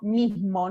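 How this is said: The S is softened into a breathy aspiration. This is how a River Plate Spanish speaker says it. "Con esta aspiración característica"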